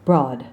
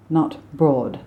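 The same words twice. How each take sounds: First: "Broad" with open ah; American broad. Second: "broad" with rounded aw; British broad. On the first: Coach modelling the American vowel. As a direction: say "Broad" like odd. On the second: Coach showing the wrong vowel. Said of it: "It's not an O". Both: Shown as a demonstration.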